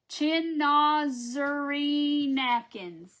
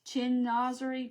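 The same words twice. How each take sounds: First: Chinazari drawn out very slowly and louder; a deliberate, laboured second try at Chinazari; slow mispronunciation. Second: Slow, halting try at Chinazari; a careful first attempt at the word; unsure mispronunciation. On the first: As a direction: stretch out Chinazari, trying hard. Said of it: "I'm butchering it". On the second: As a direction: feel your way through Chinazari unsure. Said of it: "I don't even know how to say it". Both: Real, not acted.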